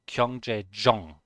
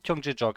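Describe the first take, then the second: First: The final sound before the next word is NG. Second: The final sound before the next word is K. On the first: The speaker calls it right. "It's actually N G" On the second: The speaker calls it wrong. "I fully expected Gyeongjejok"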